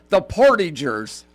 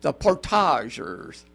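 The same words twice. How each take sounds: First: Portagers as POR-tidge-ers; everyday English pronunciation. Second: Portagers as por-TAH-zhers, drawn out slowly; slow, Frenchified Portagers with a soft zh; French-style pronunciation. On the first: First take of disputed name pronunciation. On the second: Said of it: "if you're from France". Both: Shown as a demonstration.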